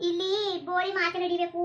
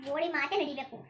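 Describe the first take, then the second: First: ಬೋಳಿ ಮಾತೆ ನಡಿಬೇಕು said slow and louder, each word pressed; slow emphatic order. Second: Said in the usual way. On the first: Acted. Grandmother to grandson, insisting her word rules, slow and firm. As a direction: lay down the law word by word.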